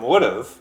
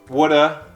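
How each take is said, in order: First: The word ends in a clear v sound. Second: The word ends in a short 'uh' sound.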